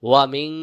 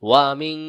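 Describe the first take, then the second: No difference in how they are said.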